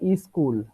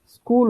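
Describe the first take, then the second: First: A vowel is added before the s sound. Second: The word begins directly with the s sound. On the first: "इसका यहां पर क्या हो जाएगा" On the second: "स्कूल होता है"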